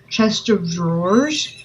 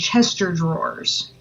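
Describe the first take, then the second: First: The word of is pronounced clearly. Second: The word of becomes an er sound.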